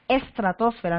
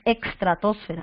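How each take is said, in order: First: The first syllable has a plain s sound. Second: The first syllable has a ks sound. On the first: The speaker calls it right. "para estratosfera tú dices estratosfera" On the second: The speaker calls it wrong. "no dices extratosfera. Eso está mal dicho"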